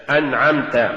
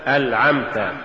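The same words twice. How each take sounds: First: Said in the usual way. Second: ألعمت with ل where ن belongs; faulty reading of أنعمت as ألعمت; mispronounced ن. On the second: Shown as a demonstration. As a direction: say ألعمت, an l replacing the n. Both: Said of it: "تقرأ لحنا".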